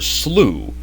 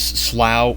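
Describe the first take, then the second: First: The word ends in an oo vowel, like slew. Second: The word does not end in an oo vowel. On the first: "or slew" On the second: "Slough can be pronounced two ways"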